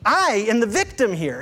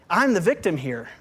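First: The pronoun I is strongly stressed. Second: The pronoun I is not stressed.

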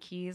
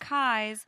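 First: The name has the vowel of 'keys'. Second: The name has the vowel of 'eyes'. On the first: This is the habitual pronunciation. "I've been saying Keys all along" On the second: This is the local guide's pronunciation. "Our tour guide said it's Kai's"

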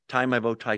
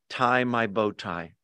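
First: It is said quickly. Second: It is said at a normal speed.

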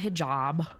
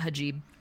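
First: The word is said as 'hi-jab'. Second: The word is said as 'ha-jib'. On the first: The speaker calls it right. "It's a hijab" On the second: The speaker calls it wrong. "someone call it a hajib"

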